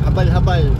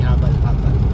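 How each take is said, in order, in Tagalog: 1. Mabilis at matigas ang pagkakasabi ng salita. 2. Mabagal at malambot ang pagkakasabi ng salita. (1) "Medyo matigas na mabilis" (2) "hindi habal-habal"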